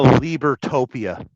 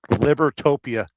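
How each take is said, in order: First: "Libertopia" said as LEE-ber-TOPE-ee-uh; long EE in Libertopia. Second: "Libertopia" said as LIB-er-TOPE-ee-uh; short I in Libertopia. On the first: Host renaming Lieberland, "Libertopia" opening with a long LEE. Trying out a country name. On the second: Host retrying his country name, "Libertopia" opening with a short LIB. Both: Shown as a demonstration.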